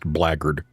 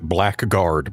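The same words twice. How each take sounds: First: The word is pronounced differently from its spelling. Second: The word is pronounced just as it is spelled. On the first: The speaker calls it right. "but it is pronounced blackguard" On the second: The speaker calls it wrong. "It's spelled as if you would pronounce it blackguard"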